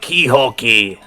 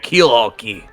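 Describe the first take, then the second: First: The first word sounds like key-hole. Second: The first word sounds like keel-haul. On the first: The speaker calls it wrong. "I said Keyhole Key" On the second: The speaker calls it right. "instead of Keelhole Key"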